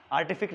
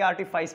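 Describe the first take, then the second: First: "आर्टिफिक" ending in a hard k; wrong reading. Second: "आर्टिफाइस" ending in "fais"; correct reading. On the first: Teacher shows students the misreading, "आर्टिफिक" ending in "fik". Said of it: "आर्टिफिक नहीं पढ़ेंगे". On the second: Teacher shows students the proper reading, "आर्टिफाइस" ending in "fais". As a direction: say "आर्टिफाइस" with a long i-glide and final s. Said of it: "आर्टिफाइस पढ़ेंगे". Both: Shown as a demonstration.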